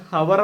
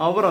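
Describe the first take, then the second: First: ഹവർ with the H sounded; wrong pronunciation. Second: അവർ starting on the vowel; silent H. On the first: Teacher shows learners the mistake for hour, H sounded in ഹവർ. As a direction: say ഹവർ with an audible initial H. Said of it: "ഹവർ എന്നല്ല". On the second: Teacher corrects the word for hour, silent H in അവർ. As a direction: say അവർ with no H sound. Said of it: "ഹെച്ച് അവിടെ silent ആണ്". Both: Shown as a demonstration.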